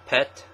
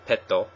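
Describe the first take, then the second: First: It is said with an English pronunciation. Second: It is said with a Japanese pronunciation. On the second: "Japanese pronounce pet as petto"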